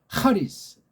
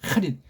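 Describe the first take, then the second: First: The word ends in a faint, trailing s sound. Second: The word ends crisply in a short t sound. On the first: The speaker calls it wrong. "꼬랑지가 희미해지는 것처럼 하리스" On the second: The speaker calls it right. "정음으로 그리면 하, 릿 이렇게 될 거 아니야"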